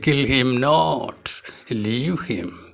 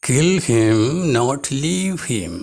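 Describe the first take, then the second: First: The pause comes after "not". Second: The pause comes after the first "him".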